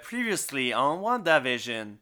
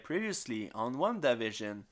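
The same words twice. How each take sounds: First: It is said with lively, high energy. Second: It is said with somewhat less energy.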